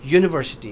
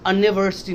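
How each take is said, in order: First: It begins with a 'y' sound. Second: It begins with a plain vowel sound. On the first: The speaker calls it right. "इसका sound यू का है" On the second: The speaker calls it wrong. "यूनिवर्सिटी नहीं है"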